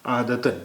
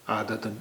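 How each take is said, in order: First: عادتاً spoken a bit louder, ending -an clearly sounded; careful pronunciation. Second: Said in the usual way. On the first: Shown as a demonstration. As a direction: give عادتاً its full ending, aadatan. (عادتاً کا صاف تلفظ، آخر میں "ن" واضح) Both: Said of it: "اس کا تلفظ ہو گیا".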